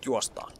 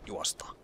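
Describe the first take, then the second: First: Said in the usual way. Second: Breathy whispered call to run. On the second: Real, not acted. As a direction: whisper the word juostaan.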